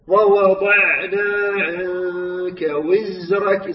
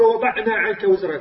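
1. صوت العين يُمَدّ أطول ويكون أرخى. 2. صوت العين يُقطع قصيرًا ويكون شديدًا. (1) "أعطي مجال للصوت يخرج" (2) "لا تقل"

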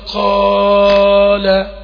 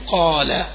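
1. المد ممدود أكثر بكثير من الطبيعي. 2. المد ممدود بقدر مدة طبيعية واحدة. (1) "ويزوده كده" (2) "كمد ألف"

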